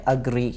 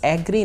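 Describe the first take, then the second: First: The first vowel sounds like 'uh'. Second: The first vowel sounds like 'eh'. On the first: The speaker calls it right. "बल्कि है अग्री" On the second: The speaker calls it wrong. "ये लफ्ज़ एग्री नहीं है"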